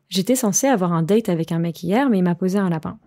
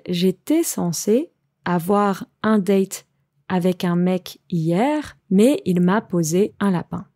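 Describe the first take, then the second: First: The sentence is spoken at a faster pace. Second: The sentence is spoken at a slower pace.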